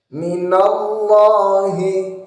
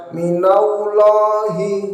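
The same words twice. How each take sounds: First: Minallahi with the ll held and full; careful minallahi; correct minallahi. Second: Minallahi with the lam rushed; a careless minallahi; wrong minallahi. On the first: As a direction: say Minallahi slowly and fully. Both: Shown as a demonstration. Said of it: "Jangan dibaca".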